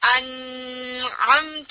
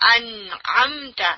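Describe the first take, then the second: First: The n sound is blurred and hidden in nasalization. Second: The n sound is pronounced clearly and distinctly. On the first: The speaker calls it wrong. "وی ڈونٹ سے انعمت" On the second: The speaker calls it right. "کیوں ہم اظہار کر رہے ہیں؟"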